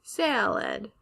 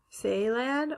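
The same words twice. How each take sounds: First: "salad" slowly as SAL-ed; short A. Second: "Salad" slowly as SAY-lad; long A. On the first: Teacher offering students a choice, "salad" as sal-ed. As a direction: say "salad" with the a of cat, drawn out. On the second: Teacher offering students a choice, "Salad" as say-lad. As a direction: say "Salad" with the a of day, drawn out. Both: Shown as a demonstration. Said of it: "How would we pronounce".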